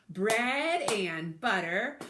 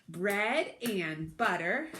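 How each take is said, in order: The two takes are said the same way.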